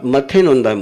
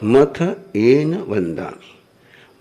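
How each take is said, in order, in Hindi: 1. यह वाक्यांश 'matthe nonda' की तरह धुंधला बोला जाता है। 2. यह वाक्यांश 'mattha-en vandami' की तरह बोला जाता है। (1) "आप मथे नोंदा में बोलते हो" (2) "मथ एन वंदामी मतलब होता है मस्तकेन वंदामी"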